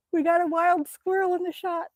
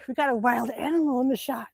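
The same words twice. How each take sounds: First: Higher, delighted announcement; thrilled at the wild squirrel; excited. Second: Voiceless excited whisper. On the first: To viewers as the squirrel enters the shot, excited. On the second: To viewers about the squirrel in the shot, whispering. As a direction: whisper it so the animal stays. Repeats it hushed. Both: Real, not acted.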